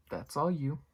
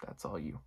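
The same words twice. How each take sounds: First: Higher, pointed "that's all you" with weight on "all"; emphatic. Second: Lower, much softer "That's all you" thrown away under the breath; muttered aside. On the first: Vlogger telling Cecilia it's her problem, emphatic. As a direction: push it back on her firmly. Comment on calling nine one one. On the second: Vlogger echoing his point to himself, muttered. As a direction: repeat it to yourself as a mumbled aside. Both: Real, not acted.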